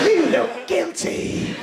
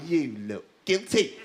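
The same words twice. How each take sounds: First: High, loud, drawn-out accusation; slow, high-pitched taunt; accusing captain. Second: Low, slow accusation; slow, ominous accusing voice; accusing captain. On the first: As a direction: raise the pitch and stretch out the charge. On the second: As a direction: draw it out low, like an inner accuser. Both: Acted. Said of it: "The captain is going".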